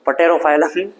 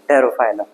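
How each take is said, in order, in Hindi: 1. शब्द की शुरुआत में P की आवाज़ सुनाई देती है। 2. शब्द की शुरुआत में P की कोई आवाज़ नहीं आती।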